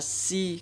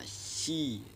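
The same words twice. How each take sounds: First: The s is light, with the tongue back lowered. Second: The s is heavy, with the tongue back raised. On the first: The speaker calls it wrong. "Jangan dibaca si. Kalau dibaca si berarti merubah huruf zu ini jadi huruf sin" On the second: The speaker calls it right. "dibaca si"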